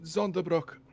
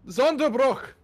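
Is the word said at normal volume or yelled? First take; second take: normal; yelled. First: The word is said at normal volume. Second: The word is yelled loudly.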